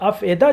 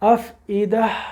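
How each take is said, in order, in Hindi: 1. आवाज़ें बिना glottal catch के आराम से चलती हैं। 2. लंबे ee से पहले ग्लोटल कैच आता है। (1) "अब हमज़ा का पता नहीं, हम पढ़ जाते अफ़ेदा" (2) "फिर उसके बाद हमज़ा आया उसके साथ एकदम नीचे"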